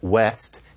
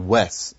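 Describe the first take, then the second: First: The final t sound is pronounced. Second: The final t sound is dropped. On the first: "West in Standard English"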